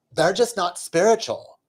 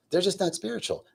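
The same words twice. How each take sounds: First: Higher, affected skit-like delivery; mock neighbor talk. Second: Softer, higher, understated judgment; private thought. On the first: Neighbor telling her friend about boyfriends, mock-smug. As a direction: imitate a smug gossiping neighbor. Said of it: "the one woman says". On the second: Retold or imitated. Meditating man silently judging his neighbors, hushed. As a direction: think it quietly to yourself. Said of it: "I'm thinking to myself".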